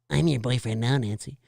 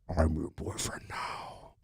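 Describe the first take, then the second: First: It is said in a normal, unlowered voice. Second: It is said in a deep, pitched-down voice.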